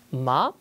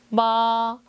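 First: The syllable is cut off short. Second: The syllable is drawn out long. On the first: "2성과 4성인 짝수성조는 짧습니다" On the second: "1성과 3성인 홀성조는요, 길어요"

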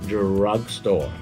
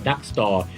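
First: The r sound is pronounced in the first word. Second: The r sound is dropped from the first word. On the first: It means a shop that sells medicine. The speaker calls it right. "ดังนั้นจะเป็น drugstore" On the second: It sounds like a shop that sells ducks. The speaker calls it wrong. "ที่คุณออกเสียงตัว r ไม่ได้กลายเป็น duck store"

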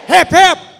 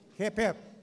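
First: It is said with a noticeably raised voice. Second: It is said at a normal speaking volume. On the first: "I'll raise my voice" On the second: "I will say in a normal voice"

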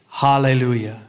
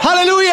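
First: It is said in a plain, ordinary way. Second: It is said in a joyful, celebrating way.

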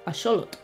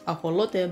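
First: The word ends with a 'tl' sound. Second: The word ends with a plain 'teh' sound. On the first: This is the original form from the ancient language. "taking the word back to its Nahua origins" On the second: This is how modern speakers of one language say it. "pronounced axolote by modern-day Spanish speakers"

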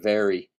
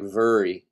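First: The word has a standard American pronunciation. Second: The word has a Southern regional pronunciation. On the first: "instead of very" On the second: "she does say things like very"

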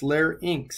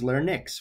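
First: The word ends with an 'inks' sound. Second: The word ends with a 'nix' sound. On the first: The speaker calls it right. "This is the inks" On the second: The speaker calls it wrong. "Nyx would be N-Y-X"

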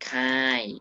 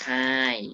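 First: The syllable has a falling tone. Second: The syllable has a falling tone.

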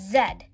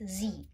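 First: It is said the way people say it in India. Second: It is said the way people say it in America.

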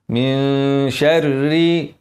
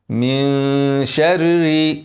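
No difference in how they are said.

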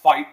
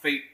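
First: The word sounds like 'fight'. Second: The word does not sound like 'fight'. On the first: The speaker calls it right. "I'll say it's pronounced Feit. F-E-I-T is, to me, it seems like fight" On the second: The speaker calls it wrong. "I wouldn't say it's pronounced Feit"

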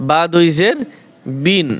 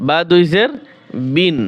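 No difference in how they are said.

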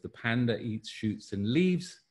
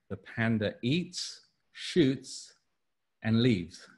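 First: It is said with no pause after eats. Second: It is said with a pause after eats.

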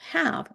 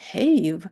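First: The vowel is said short, as usual. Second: The vowel is said long, following the rule. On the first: The speaker calls it right. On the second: The speaker calls it wrong.

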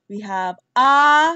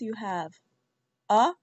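First: The vowel is stretched out longer. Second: The vowel is said short and clipped. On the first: "the long vowels are stretched out longer than the short vowels" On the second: "So the short vowels"

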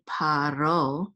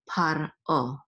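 First: The r runs smoothly into the o. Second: A glottal stop separates par from o. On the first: The speaker calls it wrong. "Don't say paro" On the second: The speaker calls it right. "at least do a glottal stop"

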